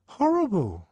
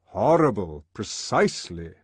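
First: Put-on high, loud boyish exclamation; high-pitched, heartfelt answer; schoolboy's dismay. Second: Loud, measured, authoritative echo; emphatic lecturer, at a grown man's pitch; controller's confirmation. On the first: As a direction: blurt out the awful memory. Boy recalls the emotion. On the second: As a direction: seize on the word approvingly. Controller confirms the boy's word. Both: A narrator's reading.

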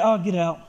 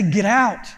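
First: Limp get out. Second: Said in the usual way. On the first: Shown as a demonstration. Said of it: "you can't just be like". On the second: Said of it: "No, you gotta say".

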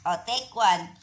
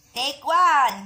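First: Said in the usual way. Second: Louder Take one with a higher pitch; loud call. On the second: Shown as a demonstration. (malakas na sigaw ng Take one)

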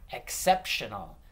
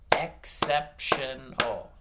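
First: Said in the usual way. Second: "Exceptional" slowly split into four beats; "Exceptional" in slow, distinct syllables. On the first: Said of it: "I'm gonna say a word". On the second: Shown as a demonstration. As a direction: clap out "Exceptional" with each syllable separate. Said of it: "you gotta clap it out".

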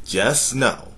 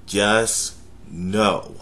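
First: Know pushed up a little; stress on know. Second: Just stretched and stressed. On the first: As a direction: lean on the word know. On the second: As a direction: linger on the word just. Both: Shown as a demonstration.

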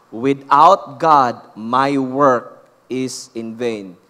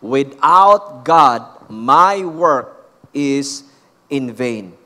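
First: WITHOUT GOD loud and drawn out, dropping low on "is in vain"; feed the line slowly for a congregation to repeat, hitting "God"; call-and-repeat model. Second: WITHOUT GOD very slow and loud, "my work is in vain" kept strong to the end; slow, forceful "Without God, MY WORK is in vain"; emphatic call-and-repeat. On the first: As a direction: stretch "Without God" loudly, then let "in vain" settle low. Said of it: "repeat after me". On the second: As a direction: drive every word home for the congregation, stretching "God" and "vain". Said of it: "Come on, say it again".

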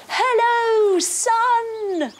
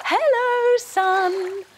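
First: High, loud greeting to the sun; cheery hello. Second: Cheery hello. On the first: Kids' yoga leader greeting the sun, bright and loud. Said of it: "we say to the sun". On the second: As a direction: call up to the sun brightly. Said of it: "reach up to the sun to say". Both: Pretend.

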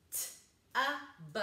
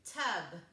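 First: T-U-B as three sounds with gaps; chopped-up sounds. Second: Said in the usual way. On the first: Shown as a demonstration. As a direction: chop T-U-B into t, uh, b. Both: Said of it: "and chop it up".

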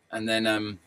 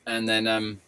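Both takes have the same delivery.

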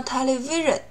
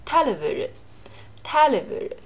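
First: Television with the stress wrongly late, on VI; common misreading. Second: Television with TEL stressed, then sliding down; TELevision, like going down a slide; first-syllable stress. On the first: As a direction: demonstrate the mistake, teleVIsion. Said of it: "很多人读成了". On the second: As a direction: start high on TEL in television and let the rest fall away. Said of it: "正确的读法是". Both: Shown as a demonstration.

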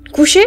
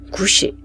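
First: Higher, louder astonished question; the sergeant can't believe it; surprised. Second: Said in the usual way. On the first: Acted. (étonné, plus fort)

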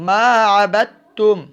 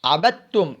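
First: Slow, drawn-out melodic recitation, a little higher and louder; Quranic recitation. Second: Said in the usual way. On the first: Shown as a demonstration. Teacher demonstrating the correct reading, slow melodic chant. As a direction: stretch it out as a tajweed chant. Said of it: "আমরা বলবো". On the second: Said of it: "দালকে ধরবো না".

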